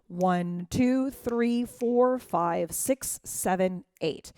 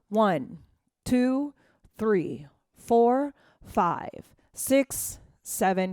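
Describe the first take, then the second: First: The counting is at a faster tempo. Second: The counting is at a slower tempo.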